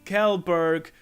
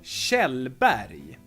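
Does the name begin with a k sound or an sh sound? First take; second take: k sound; sh sound. First: It starts with a k sound, ends with g. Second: It starts with an sh sound, ends with y. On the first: The speaker calls it wrong. "it's not, for instance, Kjellberg or something like that" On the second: The speaker calls it right. "K and J become sh. And the G at the end is a Y sound"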